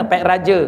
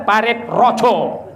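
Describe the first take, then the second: First: "Parit Raja" said the Malay way, Raja with a clear a; plain Malay "Parit Raja"; Malay pronunciation. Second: "Parit Roco", the a of Raja turned to o, said slowly; Javanese pronunciation. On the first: Villager answering where he comes from, Malay pronunciation. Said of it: "Sah, tak pandai cakap Jawa". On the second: Javanese villager naming his home, Javanese pronunciation. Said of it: "Kalau orang pandai cakap Jawa". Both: Retold or imitated.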